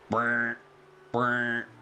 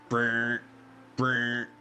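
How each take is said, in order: Both takes have the same delivery.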